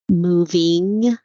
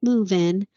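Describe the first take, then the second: First: The final -ing ending is clearly pronounced. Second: The final -ing ending is dropped or softened. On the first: "very specific and very clear in my enunciation" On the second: "We tend to drop off endings"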